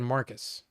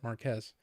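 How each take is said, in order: First: The name ends with a plain 'kus' sound. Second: The name ends with a 'kez' sound. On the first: The speaker calls it wrong. "the computer was saying Marcus" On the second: The speaker calls it right. "he pronounces it Marquez"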